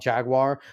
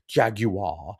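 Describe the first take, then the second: First: The word is said the ordinary, everyday way. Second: The word is said in a fancy, posh way. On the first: "you call it Jaguar" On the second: "those people trying to be fancy"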